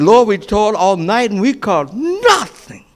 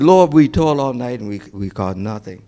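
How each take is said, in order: First: It is said with strong, exclaiming emotion. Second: It is said calmly, without strong feeling.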